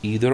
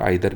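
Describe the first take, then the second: First: The first vowel sounds like 'ee'. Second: The first vowel sounds like 'eye'.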